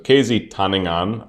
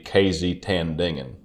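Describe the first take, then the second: First: The name is read without a Southern American accent. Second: The name is read in a Southern American accent. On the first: The speaker calls it right. "that's my best guess" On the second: The speaker calls it wrong. "if I read it like I was from America in the South"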